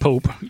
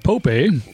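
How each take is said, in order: First: The name is said as one syllable. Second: The name is said as two syllables. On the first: The speaker calls it wrong. "Not Pope, even though I wrote Pope" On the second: The speaker calls it right. "led by Pope A"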